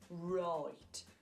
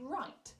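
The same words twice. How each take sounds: First: It is said in a Birmingham accent. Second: It is said in a general British accent.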